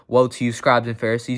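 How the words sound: It is delivered calmly and evenly. The speaker rebukes them without agitation. "He may have said it calmly"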